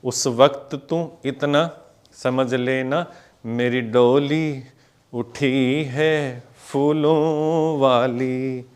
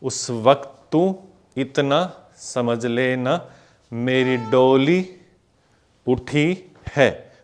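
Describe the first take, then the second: First: Slow, drawn-out lyric to the count; slow lyric recital again. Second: Slow, drawn-out sung-speech lyric; slow lyric recital. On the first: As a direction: stretch each word out. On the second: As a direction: stretch each word to the beat. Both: Shown as a demonstration. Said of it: "फिर से देखो".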